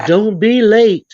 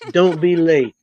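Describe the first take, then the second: First: Slow, loud stern warning. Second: Said in the usual way. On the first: Retold or imitated. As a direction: warn her firmly, drawn out. Mother warns daughters.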